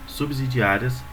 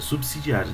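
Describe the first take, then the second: First: The middle consonant is a voiced Z sound. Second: The middle consonant is a voiceless S sound. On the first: The speaker calls it wrong. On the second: The speaker calls it right.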